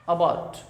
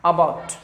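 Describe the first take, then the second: First: Said in the usual way. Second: About with the stress on the second part; stress shown. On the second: Shown as a demonstration. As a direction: lean on bout in About. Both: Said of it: "इस पे stress देना है।".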